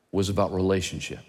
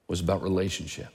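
No difference in how they are said.

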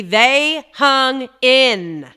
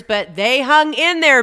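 First: «They hung in» drawn out slowly, loud; slow emphatic repeat. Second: «hung» hit louder; emphatic praise. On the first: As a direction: stretch out «They hung in» word by word. Repeating the praise. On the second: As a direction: punch «hung in there» with pride. Praising staff who endured. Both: Real, not acted.

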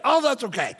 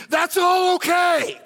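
First: Said in the usual way. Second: Shouted much higher and slower; shouted refrain. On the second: Real, not acted. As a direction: belt the refrain out to the room. Preacher repeating his refrain.

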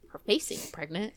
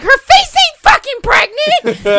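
First: Low, understated retold line; deadpan muttered comeback. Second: Very high, loud, drawn-out yell; screaming outrage. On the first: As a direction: toss it off low and dry. Calm retold repeat of catchphrase. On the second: Retold or imitated. Retelling her comeback to 'she's pregnant', screaming outrage. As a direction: scream it slowly in sheer outrage. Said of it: "we're, like, screaming at each other".

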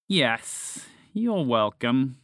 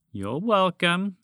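First: Slow, level snake voice; reply slowly, unmoved; snake, unimpressed. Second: High, slow, lilting with a rise; snake prompting thanks. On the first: Snake rolling eyes at ungrateful frog, slow and unimpressed. Snake answers sarcastic thanks. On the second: Snake to the frog it freed, slow and pointed. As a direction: prompt pointedly for gratitude, slowly. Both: A narrator's reading.

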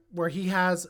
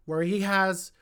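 Both takes have the same delivery.

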